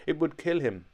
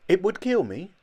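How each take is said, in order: First: Said in the usual way. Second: Higher and louder, disbelieving kill rising; shocked question. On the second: A narrator's reading. Old Jolly hearing the operation would kill him, aghast. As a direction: gasp it back in horror.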